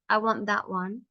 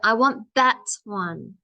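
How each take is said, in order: First: The word 'that' gets no extra push. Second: The word 'that' is pushed with extra stress. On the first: The speaker calls it wrong. "Not just" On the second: The speaker calls it right. "I have to push that word"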